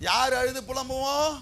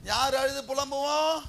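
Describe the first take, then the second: No difference in how they are said.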